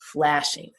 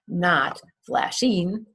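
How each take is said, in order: First: The stress is on the first syllable. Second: The stress is on the second syllable. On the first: The speaker calls it right. "it's on the first syllable" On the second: The speaker calls it wrong.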